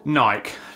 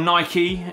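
First: The name is said the British way. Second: The name is said the American way. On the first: "I know we kind of say it differently here" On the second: "if you're joining me from the States"

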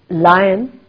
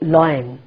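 First: The word is said as two syllables, like 'lie-un'. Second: The word is said as one syllable, like 'loin'. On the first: The speaker calls it right. "Lion is the correct pronunciation" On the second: The speaker calls it wrong. "loin is the wrong pronunciation"

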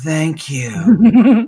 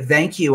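First: It is said in a low, suggestive tone. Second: It is said in a plain, polite tone. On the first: It carries a sexual suggestion. "it's just a change of tone of voice" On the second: It is an ordinary, polite thanks. "the same words that are civil in polite society"

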